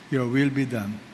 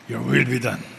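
First: It is said in a resigned, defeated tone. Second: It is said in an angry, resentful tone.

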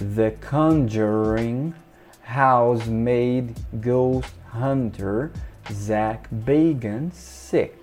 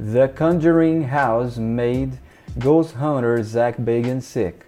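First: The sentence is spoken at a slower pace. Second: The sentence is spoken at a normal, quicker pace.

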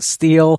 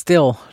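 First: The vowel is long, rhyming with feel. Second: The vowel is short, rhyming with fill. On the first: The speaker calls it wrong. "not steel" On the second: The speaker calls it right. "it's pronounced still"

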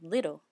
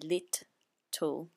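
First: The word is run together smoothly as one. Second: The word is split into two separate parts. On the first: The speaker calls it right. "You just run it together, so little" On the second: The speaker calls it wrong. "we don't say lit, tool, and here two T's"

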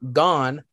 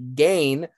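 First: The name's vowel rhymes with 'on'. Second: The name's vowel rhymes with 'rain'. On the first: "he actually put parentheses pronounced gone" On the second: "I would have pronounced it gain"

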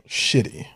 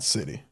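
First: The word begins with an sh sound. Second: The word begins with an s sound. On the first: The speaker calls it right. "And then it would probably be shitty" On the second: The speaker calls it wrong. "Not city"

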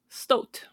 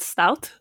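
First: The vowel sounds like 'oh' in 'boat'. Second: The vowel sounds like 'ow' in 'out'. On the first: The speaker calls it right. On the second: The speaker calls it wrong.

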